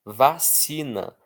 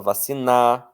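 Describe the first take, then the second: First: Vacina drawn out slowly, CI strong; stress on CI. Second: Vacina wrongly stressed on the last syllable, NA; stress moved to NA. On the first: Teacher reads an example word, stress on CI. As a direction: stretch the middle syllable of vacina. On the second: Teacher shows how nobody says vacina, stress on NA. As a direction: say vaci-NÁ, strong ending. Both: Shown as a demonstration. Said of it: "eu não falo vacinar".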